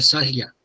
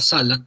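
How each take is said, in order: First: The l sound is palatalized, like a y. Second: The l sound is plain. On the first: "para ellos sería salia" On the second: "la palabra sala"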